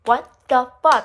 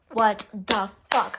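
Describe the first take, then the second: First: Loud, punchy mock yell; raised voice, acting out the outburst; retold yelling. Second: Slow, word-by-word disbelief; retold upset, slow and deliberate. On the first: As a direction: yell it at her in exasperation. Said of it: "like, yelling at her". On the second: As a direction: spread each word out slowly. Confronting her big while upset.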